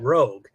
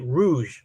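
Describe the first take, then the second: First: It is said with a hard g ending. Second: It is said like the word for the red colour. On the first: The speaker calls it right. "instead of it being Rogue" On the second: The speaker calls it wrong. "I pronounced it Rouge like the color"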